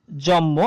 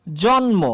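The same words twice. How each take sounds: First: জন্ম said jommo, the m doubled and no n; spoken jommo. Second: জন্ম said jon-mo with the n and m both sounded; spelled-out jonmo. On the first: Teacher shows the assimilated everyday sound, jommo. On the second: Teacher reads the written form before the sound change, jon-mo. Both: Shown as a demonstration. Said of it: "জন্ম থেকে হয়ে গেল".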